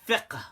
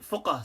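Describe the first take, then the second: First: The vowel is a front i sound. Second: The vowel is a rounded u sound. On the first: This is the traditional pronunciation. The speaker calls it right. "it's called fiqh with a kasra" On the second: This is how some Arabs say it today. The speaker calls it wrong. "they actually pronounce it fuqah"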